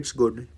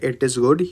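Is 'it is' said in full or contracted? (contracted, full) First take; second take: contracted; full. First: 'It is' is run together into 'it's'. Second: Both words 'it is' are said separately. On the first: "या बोलोगे इट्स good. मतलब एक fluency" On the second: "या तो आप बोलोगे इट इज़ good"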